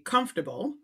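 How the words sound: It is said with an American pronunciation.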